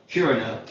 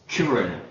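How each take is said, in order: No difference in how they are said.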